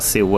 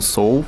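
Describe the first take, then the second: First: The name has the Portuguese pronunciation. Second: The name has the Korean pronunciation. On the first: Locals would find it strange. The speaker calls it wrong. "Os próprios coreanos não falam Seul" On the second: This is how locals say it. The speaker calls it right. "Eles falam Seoul"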